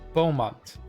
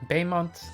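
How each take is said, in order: First: The first syllable sounds like 'bow'. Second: The first syllable sounds like 'bay'. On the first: The speaker calls it right. "It's pronounced like bow" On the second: The speaker calls it wrong. "I always call him Baymont"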